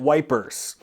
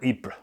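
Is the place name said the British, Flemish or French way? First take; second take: British; French. First: The name is said like 'wipers', starting with w. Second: The name is said with a French pronunciation. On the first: "The British, though, they called it wipers" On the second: "in French is, I think, pronounced Ypres or Ypres"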